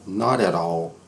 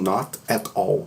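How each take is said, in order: First: The words run together in one linked stream. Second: Each word is pronounced separately and carefully. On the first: The speaker calls it right. "As pessoas vão dizer assim" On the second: The speaker calls it wrong. "você não diz assim"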